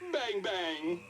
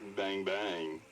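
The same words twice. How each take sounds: First: It is said in a happy tone. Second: It is said in a flirty tone.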